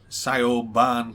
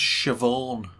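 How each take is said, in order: First: The name sounds like 'sigh-oh-barn'. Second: The name sounds like 'shiv-awn'. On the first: The speaker calls it wrong. "Can I speak to Cy O'Barn" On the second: The speaker calls it right. "it's pronounced Siobhan"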